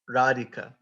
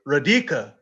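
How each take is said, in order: First: The second syllable is not strongly stressed. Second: The second syllable is strongly stressed. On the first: The speaker calls it right. "does not sound as sweet as radika" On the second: The speaker calls it wrong. "they'll say radika"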